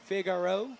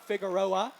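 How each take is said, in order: First: The name is said like Figaro. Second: The name is said like Figueroa. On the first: The speaker calls it wrong. "I'm saying that wrong still" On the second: The speaker calls it right. "there we go"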